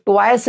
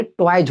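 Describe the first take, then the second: First: टॉयस ending in a hissed s; wrong s ending. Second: टॉयज ending in a voiced j/z. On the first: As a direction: say टॉयस as "toyce", the mistaken way. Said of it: "नहीं". (टॉयस के अंत में स की आवाज़) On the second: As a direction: say टॉयज as "toyj", buzzed at the end. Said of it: "होकर के टॉयज हो जाएगा". (टॉयज के अंत में ज की आवाज़) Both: Shown as a demonstration.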